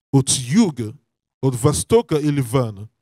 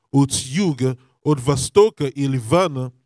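No difference in how they are said.

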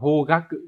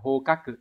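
First: The middle consonant is a voiced g sound. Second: The middle consonant is a voiceless k sound. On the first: The speaker calls it right. "nhớ là đọc là hogaku" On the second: The speaker calls it wrong. "không phải là hokaku"

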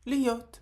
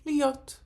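First: The middle h sound is dropped entirely. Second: The same.

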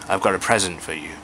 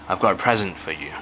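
No difference in how they are said.

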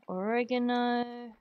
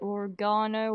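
First: It is said with an American accent. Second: It is said with a British accent.

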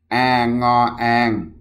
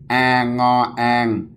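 No difference in how they are said.

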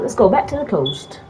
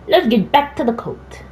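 First: It is said in the speaker's ordinary American voice. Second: It is said in a put-on British accent.

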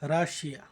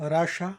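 First: It is said in a South Asian way, as 'Rashia'. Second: It is said in an American way, as 'Rasha'. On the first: This is how South Asians say the name. "আমাদের Asian এই দিকের মানুষরা আমরা বলি রাশিয়া" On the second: This is how Americans say the name. "আমেরিকানরা বলে রাশা"

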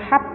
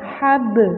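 First: The final b is stopped without any bounce. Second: The final b is released with a short bounce. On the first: The speaker calls it wrong. "Enggak boleh hab lu, salah" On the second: The speaker calls it right. "tapi dipantulkan hab"

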